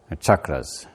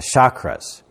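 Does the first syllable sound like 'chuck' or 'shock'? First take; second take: chuck; shock. First: The first syllable sounds like 'chuck'. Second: The first syllable sounds like 'shock'. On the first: The speaker calls it right. "that's how you pronounce it" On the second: The speaker calls it wrong. "in asana yoga we talk about the chakras, but that's not what it is"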